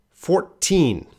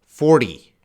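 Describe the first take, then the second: First: Put-on "Fourteen" high, with a long, clear "teen"; stress on teen. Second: "Forty" loud with the stress on "for" and a short T; short final T. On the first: Teacher stressing teen so students hear it clearly. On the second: Teacher contrasting forty with fourteen for the class. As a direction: punch "for" in "Forty", keep the T short. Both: Shown as a demonstration. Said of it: "you gotta be very clear".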